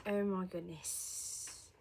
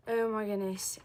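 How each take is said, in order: First: Very slow, stretched exclamation; drawn out. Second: Said in the usual way. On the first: Real, not acted. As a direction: drag every word out. Repeats it drawn out.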